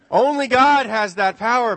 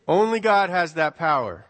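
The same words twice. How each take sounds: First: Loud, high laughing line to the parents. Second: Said in the usual way. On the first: Real, not acted. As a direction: laugh it out as a punchline.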